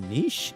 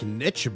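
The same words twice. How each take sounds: First: It rhymes with quiche. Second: It does not rhyme with quiche. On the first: "some say niche. It's, it rhymes with quiche" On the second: "I kind of like niche better"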